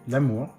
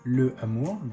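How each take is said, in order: First: The article's vowel is dropped. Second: The article's vowel is kept separately. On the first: The speaker calls it right. "but l'amour" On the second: The speaker calls it wrong. "not le amour"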